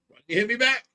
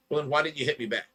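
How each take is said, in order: First: Indignant repeat. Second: Said in the usual way. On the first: Retold or imitated. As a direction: push the question hard the second time. Repeats question, second louder.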